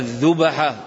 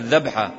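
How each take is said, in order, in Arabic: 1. تُنطق الكلمة بحركات على نمط «هُمَزة». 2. تُنطق الكلمة بالحركات الشائعة في الكلام اليومي. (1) "وإلا الأصل فيها الذبحة" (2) "يقولون هكذا الذبحة، وبعض العرب يلحن هذا، يقول هذا عند العوام"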